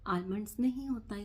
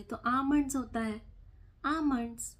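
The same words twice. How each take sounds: First: आलमंड्स said with the L sounded, as the wrong way; guest's आलमंड्स with a clear L; wrong pronunciation. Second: आमंड्स with a silent L, stressed; correct pronunciation. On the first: Correcting a guest, mimics his आलमंड्स with the L. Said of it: "भाई साहब". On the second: Correcting a guest, stresses आमंड्स without the L. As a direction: say आमंड्स, no L sound. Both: Retold or imitated.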